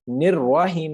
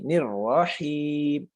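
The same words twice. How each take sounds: First: The r syllable has a rounded 'o' vowel. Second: The r syllable has an open 'a' vowel. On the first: The speaker calls it wrong. "फिर रोह रोह पढ़ते हैं ... यह गलत हो जाएगा। निर्वाहीम नहीं" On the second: The speaker calls it right. "रा जबर रा"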